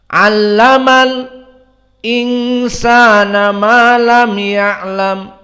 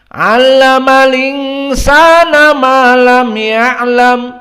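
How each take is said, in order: First: A brief silent stop comes before the glottal stop. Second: The glottal stop drops and the words run together. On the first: "namun dia sakt, yakni sukut qalilan" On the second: "Lalu hamzahnya hilang, harokatnya saja yang berpindah kepada lam"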